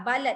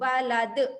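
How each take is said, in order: First: The l and d sounds run together. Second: The l and d sounds are kept apart. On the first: "dengar bunyi la dengan dal dan melekat" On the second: "Dia tak melekat langsung"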